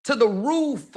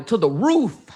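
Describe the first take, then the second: First: TO THE ROOF pitched up high, falling on ROOF; emphatic repeat. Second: Said in the usual way. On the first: Real, not acted. Mother boasting of daughter's confidence, emphatic high repeat. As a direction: lift "To the roof" higher for emphasis.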